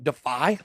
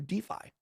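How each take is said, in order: First: It sounds like the ordinary verb defy. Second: It does not sound like the verb defy. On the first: It means to resist or oppose. "like defy, like we're trying to defy the financial cartel" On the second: It names decentralized finance. "but it's also DeFi"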